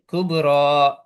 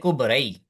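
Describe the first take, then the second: First: The word ends with a plain long a sound. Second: The word ends with a y-like glide sound. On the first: The speaker calls it right. "We say kubra, It sounds like an alif" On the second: The speaker calls it wrong. "We don't say kubrai"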